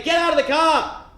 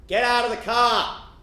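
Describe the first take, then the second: First: High, loud barked police order; police shout. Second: Loud, slower order, less high; repeated police shout. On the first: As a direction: yell the order like a cop. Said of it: "they say". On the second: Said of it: "The police say again". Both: Retold or imitated.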